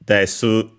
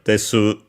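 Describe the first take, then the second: First: The final u vowel is clearly pronounced. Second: The final u vowel is clearly pronounced.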